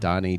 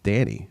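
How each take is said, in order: First: The first vowel is an 'o' sound. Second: The first vowel is an 'a' sound. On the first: The speaker calls it wrong. "I pronounced it Donnie" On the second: The speaker calls it right. "It's Danny, apparently"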